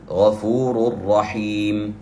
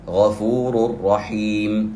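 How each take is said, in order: First: The n sound merges fully into the r. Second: The same.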